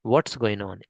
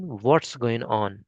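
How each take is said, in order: First: Said in the usual way. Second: "What's" drawn out and falling; very slow question. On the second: Shown as a demonstration. Teacher slowly modelling the question. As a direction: stretch every word out slowly. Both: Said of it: "ये question है third question".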